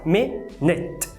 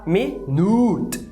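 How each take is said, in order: First: The second vowel is reduced to a schwa. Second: The second vowel is pronounced as a full U. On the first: The speaker calls it right. "na verdade é um schwa" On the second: The speaker calls it wrong. "você quer falar minute, porque você está vendo o U escrito"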